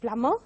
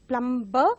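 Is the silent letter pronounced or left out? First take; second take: left out; pronounced. First: The silent letter is left out. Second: The silent letter is pronounced aloud. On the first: The speaker calls it right. "but it is plumber" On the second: The speaker calls it wrong. "mostly mispronounced as"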